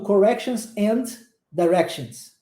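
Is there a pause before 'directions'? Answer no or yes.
yes. There is a pause between the words. The speaker calls it wrong. "Eu não fico falando"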